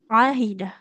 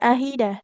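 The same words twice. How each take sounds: First: It starts with a deep sound from the throat. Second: It starts with a plain vowel, not from the throat. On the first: The speaker calls it right. "huruf ain Ibu ya. Di tengah tenggorokan kita" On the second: The speaker calls it wrong. "tidak ahidah"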